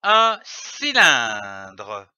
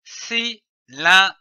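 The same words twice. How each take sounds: First: "un cylindre" slow and joined, stretched at the end; "un cylindre" drawn out without breaks; whole word joined. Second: "cylindre" broken into separate syllables with pauses; "cylindre" in detached reading-lesson syllables. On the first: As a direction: blend "cylindre" into one long, lower-falling word. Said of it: "donne le mot". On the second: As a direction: sound out "cylindre" one syllable at a time. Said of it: "L'association des syllabes donne le mot". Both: Shown as a demonstration.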